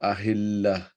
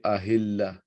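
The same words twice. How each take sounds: First: The word ends with an h sound. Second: The same.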